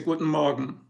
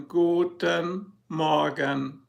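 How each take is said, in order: First: Said in the usual way. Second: Guten Morgen drawn out syllable by syllable; very slow. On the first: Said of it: "You say". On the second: Shown as a demonstration. Showing viewers the overly slow Valium version. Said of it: "But you don't say it that slow".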